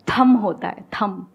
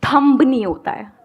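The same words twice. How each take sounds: First: "थम" ending on m, the b silent; correct thumb. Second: "थंब" stressed, with the final b sounded; wrong thumb. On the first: Teacher modelling the correct word, "थम" with silent b. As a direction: close "थम" on the m, no b. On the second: Teacher giving another example of the mistake, "थंब" with a b. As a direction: punch "थंब" and let the b be heard. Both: Shown as a demonstration. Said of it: "या बी silent".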